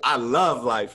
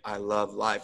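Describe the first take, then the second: First: The phrase is said brightly, with real enthusiasm. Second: The phrase is said flatly, without enthusiasm. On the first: The speaker truly feels good about life. The speaker calls it right. "as opposed to" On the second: The speaker is stuck in a rut. The speaker calls it wrong. "you're no longer saying, I love life, like you're saying it like that"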